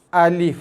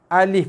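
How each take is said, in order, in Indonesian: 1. Setiap vokal dibaca pendek, satu ketukan. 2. Setiap vokal dibaca pendek, satu ketukan.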